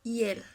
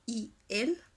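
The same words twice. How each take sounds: First: "Y él" merged into one syllable, yel; reduced to one syllable. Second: "y él" as two separate vowels, i, el; two syllables. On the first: Teacher demonstrating the reduction, "Y él" said as one syllable. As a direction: start "Y él" with a y consonant glide. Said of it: "quedaría reducida en una sola". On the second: Teacher showing the ideal form, "y él" in two syllables. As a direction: keep "y" apart from "él". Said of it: "Lo ideal serían dos sílabas". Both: Shown as a demonstration.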